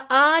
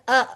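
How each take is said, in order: First: The vowel is drawn out long. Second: The vowel is kept short. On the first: The speaker calls it wrong. "आ आ नहीं कहना" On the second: The speaker calls it right. "बस इससे ज्यादा लंबा नहीं होना चाहिए"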